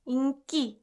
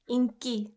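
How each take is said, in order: First: The second syllable starts with a hard k. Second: The second syllable starts with a hard k.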